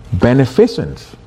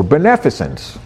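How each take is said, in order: First: Beneficence stressed late, as ben-e-FI-cence; shifted syllable stress. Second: Beneficence stressed as be-NEF-i-cence; second-syllable stress. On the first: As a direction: lean on the third syllable, FI, in beneficence. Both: Shown as a demonstration. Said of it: "emphasis in the wrong syllable".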